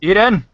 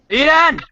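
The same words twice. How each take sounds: First: Raised-voice shout, pitched up; calling out. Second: High-pitched, louder yell. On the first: Host calls for Eden on the stream, calling out. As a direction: call out to get someone's attention. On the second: Host tries again to reach Eden, yelling louder. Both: Real, not acted. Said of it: "Because yelling louder is gonna help".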